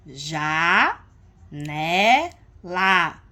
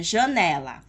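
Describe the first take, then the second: First: "Ja, né, lá", each syllable drawn out and separated by a pause; split into syllables. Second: Said in the usual way. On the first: Shown as a demonstration. Teacher showing syllable division of a word, "Ja, né, lá" syllable by syllable. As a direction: stretch "Ja", "né", "lá" as three separate louder beats. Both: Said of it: "a gente aprende a divisão silábica".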